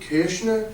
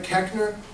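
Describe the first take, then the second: First: The name is said with a German-like pronunciation. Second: The name is said with an Americanized pronunciation. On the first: "which would be closer to the correct pronunciation of my last name" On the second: "I'm actually not a Keckner"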